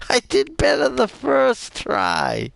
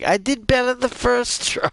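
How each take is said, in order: First: Giggling at own failure, pitched up; laughing. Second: An embarrassed, pitched-up complaint; high whine. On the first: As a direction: laugh through the words, high. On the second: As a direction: whine it out much higher. Embarrassed after dying. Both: Real, not acted.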